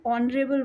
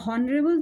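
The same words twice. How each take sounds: First: ऑनरेबल said with a silent h, starting on the o; correct pronunciation. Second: हॉनरेबल said with a clear h sound at the start; wrong pronunciation. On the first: Teacher to students, showing the right way: ऑनरेबल without h. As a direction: open ऑनरेबल straight on the vowel, no h. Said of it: "ऑनरेबल बोलते हैं". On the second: Teacher to students, showing the wrong way: हॉनरेबल with h. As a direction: pronounce हॉनरेबल with a voiced h before the o. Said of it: "हॉनरेबल तो बोलते नहीं है". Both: Shown as a demonstration.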